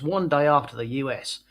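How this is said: It is read in an exaggerated put-on accent.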